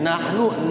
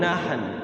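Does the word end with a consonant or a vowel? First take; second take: vowel; consonant. First: The word ends with a final vowel. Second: The word ends on a bare consonant.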